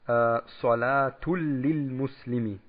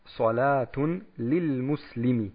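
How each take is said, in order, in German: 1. Der n-Laut verschmilzt vollständig mit dem l. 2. Der nasale n-Laut bleibt vor lil erhalten.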